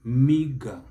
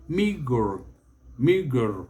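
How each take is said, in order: First: Meager as MEE-guh, no final r; British pronunciation. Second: Meager with the final r sounded; American pronunciation. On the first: Teacher models British meager, British pronunciation. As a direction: drop the r at the end of meager. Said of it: "The British will spell it". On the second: Teacher models American meager, American pronunciation. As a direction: curl an r at the end of meager. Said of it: "The Americans will spell it". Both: Shown as a demonstration.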